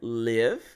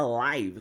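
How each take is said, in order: First: The vowel sounds like the one in give. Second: The vowel sounds like the one in five. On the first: Someone resides somewhere. "a mesma palavra com a pronúncia live. I live in Santos, eu moro em Santos" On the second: Something is being broadcast in real time. "a gente também tem a pronúncia live. ... I'm live on YouTube, eu estou ao vivo"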